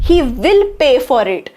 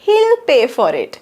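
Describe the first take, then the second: First: He and will are said as two separate words. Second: He and will are merged into one syllable.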